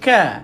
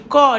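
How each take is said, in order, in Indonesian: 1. Bunyi k terdengar ringan, dengan hembusan napas yang dilepaskan. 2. Bunyi k terdengar berat dan tebal. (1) "dia baca ka. Ka dan angin perlu dikeluarkan" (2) "kaf ini tuan-tuan tidak tebalkan, sebab kaf dia bukan baca ka"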